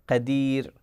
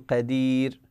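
Both takes have the same delivery.

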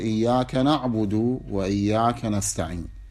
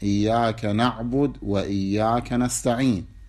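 First: The first na'bud runs on with a final vowel. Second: The first na'bud runs on without a final vowel. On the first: "توصل بالحركة" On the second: "يجوز الوصل بالساكن"

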